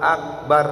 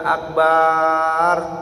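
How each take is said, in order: First: The vowels in the word are kept short. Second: A vowel in the word is drawn out long. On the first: The speaker calls it right. "Harus dibaca Allahu Akbar" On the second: The speaker calls it wrong. "gak boleh dibaca panjang, gak boleh dibaca akbar"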